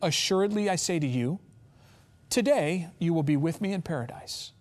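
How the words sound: The pause comes before the word today.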